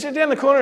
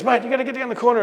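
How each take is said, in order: First: Urgent shout. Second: Urgent call. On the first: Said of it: "he says". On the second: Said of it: "he goes". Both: Retold or imitated.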